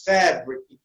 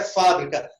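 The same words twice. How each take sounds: First: "fabric" as FE-brik; English "fabric" with an open "eh" in the first syllable; English pronunciation. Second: Said in the usual way. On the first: Shown as a demonstration. Teacher contrasting a false cognate, English "fabric". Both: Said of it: "a gente é fábrica".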